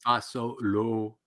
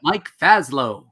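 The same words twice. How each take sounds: First: "Fasolo" slowly in three full syllables, fa-SO-lo; soft, slow "Fasolo" with long o sounds; careful pronunciation. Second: Loud, slow "Faslow" with the middle vowel dropped; mispronounced name. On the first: Shown as a demonstration. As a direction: draw out each syllable of "Fasolo". Repeating the name's correct pronunciation. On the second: Retold or imitated. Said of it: "who couldn't pronounce your name".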